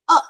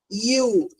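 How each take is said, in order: First: The vowel is said short and clipped. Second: The vowel is said long and stretched. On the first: "it is giving you the short sound" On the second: "here it is a stretchy sound"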